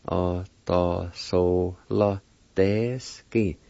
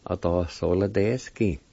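First: "Autosola deski" very slowly, in separated syllables. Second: Said in the usual way. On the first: Shown as a demonstration. Teacher repeating the word for pendulum, very slow syllables. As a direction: stretch out "Autosola deski" part by part. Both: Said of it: "it's pronounced like this".

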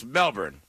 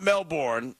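First: Melbourne with a short "burn" ending; corrected Melbourne. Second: Melbourne with a full "born" ending; wrong pronunciation of Melbourne. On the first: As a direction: say Melbourne as "MEL-burn", R sounded. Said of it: "it's Melbourne". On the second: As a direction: say Melbourne as "Mel-born", R sounded. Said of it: "it's not Melbourne". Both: Shown as a demonstration.

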